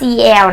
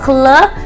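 First: The letters are said by their names. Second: The letters are blended into one sound. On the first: The speaker calls it wrong. "เขาจะไม่ให้ออกเสียงว่า" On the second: The speaker calls it right. "อ่านว่า"

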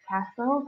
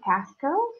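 First: The T sound is not pronounced. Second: The T sound is clearly pronounced. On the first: The speaker calls it right. "the T is silent" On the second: The speaker calls it wrong. "so it's not castle"

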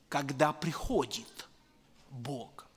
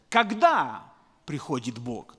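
First: It sounds like a statement about what happens. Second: It sounds like a question asking when.

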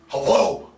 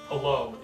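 First: It is barked out angrily like a dog. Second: It is said in a calm, polite way.

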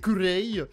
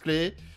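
First: Two syllables, ending in an 'ay' vowel. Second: One syllable ending in an 'ay' vowel. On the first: This is how it is said in Korean. "En coréen, c'est kurei" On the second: This is how it is said in Japanese. "en japonais, ça se prononce clé"

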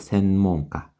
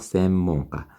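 First: The first nasal sound is pronounced as n. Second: The first nasal sound is pronounced as m. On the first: The speaker calls it wrong. "물론 센으로 발음을 해도 돼요" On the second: The speaker calls it right. "앞에 응은 미음으로 발음이 되고"

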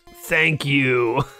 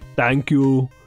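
First: It is said in an ordinary, natural voice. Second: It is said in a deep, put-on impersonation voice.

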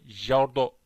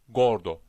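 First: The word begins with a j sound. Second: The word begins with a hard g. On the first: The speaker calls it wrong. "jordo değil" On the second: The speaker calls it right. "aynı G harfi Türkçedeki gibi"

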